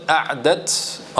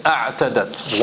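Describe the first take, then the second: First: أَعْدَتْ said short, without the t before the final -dat; أَعْدَتْ clipped to two syllables, a-ʕ-dat; alternative word form. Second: أَعْتَدَتْ with the full three syllables a-ʕ-ta-dat; أَعْتَدَتْ said with the extra -ta- syllable; actual word form. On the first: Teacher gives the word Allah did not use, أَعْدَتْ pronounced short. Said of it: "Allah Jalla could have said". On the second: Teacher gives the Quran's word, أَعْتَدَتْ with all three syllables. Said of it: "He said". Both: Shown as a demonstration.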